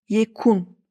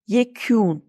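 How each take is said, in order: First: The k is hard and the u plain. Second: The k is softened and the u fronted. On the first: "U'nun üstünde şapka olmasaydı şöyle telaffuz ederdim" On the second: "bu U ne normal U ne de Ü"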